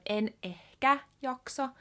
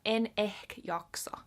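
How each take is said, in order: First: The final vowel of ehkä is pronounced. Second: The final vowel of ehkä is dropped. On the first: "Instead of" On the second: "you might cut off the last a"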